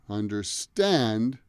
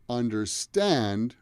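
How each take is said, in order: The two takes are said the same way.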